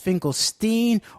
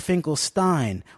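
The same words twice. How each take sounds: First: The last syllable has a vowel other than long I. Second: The last syllable has a long I vowel.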